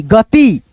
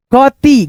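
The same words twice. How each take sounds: First: Said in the usual way. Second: गति broken up as ग, then ति; separated beginner's reading of गति; split into parts. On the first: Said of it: "उसके बाद से बोल देते हैं". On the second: Shown as a demonstration. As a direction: sound out गति in two pieces. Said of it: "दो भागों में डिवाइड करके".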